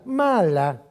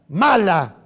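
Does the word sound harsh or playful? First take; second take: playful; harsh. First: It is said in a playful, affectionate tone. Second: It is said in a harsh, serious tone.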